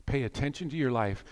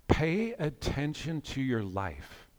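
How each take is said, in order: First: Said in the usual way. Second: Slow and hushed, each word given room; slow, soft exhortation. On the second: Real, not acted. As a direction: urge them softly, taking your time. First take, slowly impressed on listeners.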